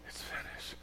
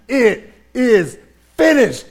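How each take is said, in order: First: It is said wearily, with relief. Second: It is shouted in triumph.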